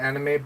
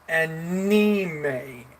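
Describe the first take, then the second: First: The word is said with an English pronunciation. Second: The word is said with a Japanese pronunciation. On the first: "In English, we usually call it anime" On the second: "but in Japan, we, they call it anime"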